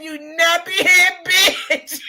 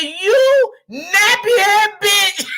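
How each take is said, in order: First: Slow, chuckling quote; quote through laughter. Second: Slow, laughing quote, louder and higher; quote through laughter. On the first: Retelling the insult a second time, chuckling to viewers. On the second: Laughing hard while repeating the lady's insult to viewers. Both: Retold or imitated. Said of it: "She said".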